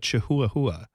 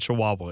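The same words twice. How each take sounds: First: The word is sounded out following its spelling. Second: The word is said with its usual pronunciation.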